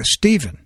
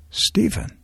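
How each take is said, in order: First: Said in the usual way. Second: Softer, hushed call of a name; lowered voice. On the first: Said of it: "if I speak in my normal voice". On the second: Shown as a demonstration. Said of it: "if I lower my voice".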